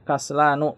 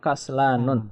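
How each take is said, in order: First: The word ends on a vowel without final n. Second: The word ends with an added final n sound. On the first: The speaker calls it right. "dibaca tanpa tanwin" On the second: The speaker calls it wrong. "bukan kaslanun"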